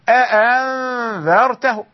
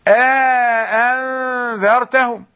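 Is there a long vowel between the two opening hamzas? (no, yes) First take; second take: no; yes. First: Two fully pronounced hamzas come with no long 'a'. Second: A long 'a' separates two fully pronounced hamzas. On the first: "وإذا حقق بدون إدخال يقول" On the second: "إذا حقق بالإدخال يقول"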